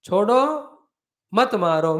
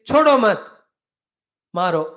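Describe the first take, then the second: First: The break falls after 'chodo', joining 'mat' with 'maro'. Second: The break falls after 'mat', joining it with 'chodo'. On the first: Leave him, don't kill him. "means leave, don't kill" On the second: Kill him, don't leave him. "if it is pronounced little closer to the chodo"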